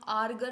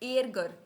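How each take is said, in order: First: The first vowel is an 'ah' sound. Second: The first vowel is an 'eh' sound. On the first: The speaker calls it wrong. "इसको हम आरगर नहीं बोलेंगे।" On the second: The speaker calls it right. "हमारे पास आ गया ए मिट उमलाउट"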